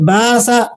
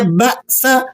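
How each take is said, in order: First: The vowel flows smoothly without a break. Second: The vowel is cut off sharply mid-word. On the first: The speaker calls it wrong. "आप इसे बासा यूं पढ़ें तो दुरुस्त नहीं है" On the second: The speaker calls it right. "झटके के साथ अदा करना होता है"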